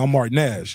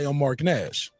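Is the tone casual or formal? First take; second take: casual; formal. First: It is said in a casual, street tone. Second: It is said in a polite, formal tone. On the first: The speaker is talking like a peer from the street. "I'm not talking to him like" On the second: The speaker is acting as a professional interviewer. "in my professional with my glasses on tone"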